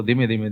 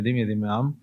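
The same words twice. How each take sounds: First: Said in the usual way. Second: ધીમે ધીમે said much softer; softly, slowly. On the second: Shown as a demonstration. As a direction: let ધીમે ધીમે drop to a soft, gentle voice.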